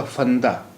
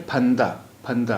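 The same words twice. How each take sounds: First: Teacher shows the wrong फंदा with f. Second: फंदा with an aspirated ph, not f; correct ph in फंदा. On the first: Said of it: "और फंदा कोई, लफ्ज़ नहीं है". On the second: Teacher models फंदा with aspirated ph. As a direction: puff of air on फंदा. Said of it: "ये लफ्ज़ है फंदा". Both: Shown as a demonstration.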